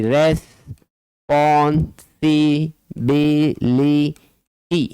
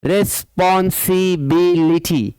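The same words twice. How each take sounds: First: रिस्पॉन्सिबिलिटी very slow: रिस, पॉन, सि, बि, लि, टी; level chant of रिस्पॉन्सिबिलिटी with gaps between beats; broken into syllables. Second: रिस्पॉन्सिबिलिटी in linked even beats; measured रिस-पॉन-सि-बि-लि-टी, beats close together; syllable-by-syllable reading. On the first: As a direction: dictate रिस्पॉन्सिबिलिटी one syllable at a time. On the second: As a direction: enunciate every syllable of रिस्पॉन्सिबिलिटी. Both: Shown as a demonstration. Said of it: "more than three syllables".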